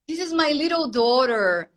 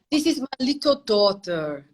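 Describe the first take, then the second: First: It is spoken in an American English accent. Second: It is spoken in a British English accent. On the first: "Esse é o americano" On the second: "Esse é o britânico"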